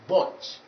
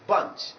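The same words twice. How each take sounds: First: The vowel is a rounded 'o' sound. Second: The vowel is a weak, short 'uh' sound. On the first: The speaker calls it wrong. "you would remember vowel number six, which is O" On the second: The speaker calls it right. "we are dealing with vowel number ten"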